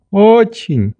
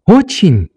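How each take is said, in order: First: "Очень" high, a little drawn out, as an answer; assuring old doctor. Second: "Очень?" high and quick, as a question; questioning little girl. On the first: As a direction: confirm "Очень" in the old man's voice. Doctor answers Nelly's question. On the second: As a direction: ask "Очень?" in a child's high voice. Nelly asks the doctor. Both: A narrator's reading.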